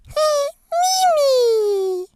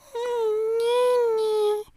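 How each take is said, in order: First: It is said in a happy tone. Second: It is said in a sad tone.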